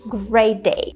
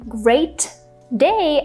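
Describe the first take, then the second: First: The T sound is held without air. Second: The T sound is released with air. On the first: "I'm just saying great day" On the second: "Instead of saying great day"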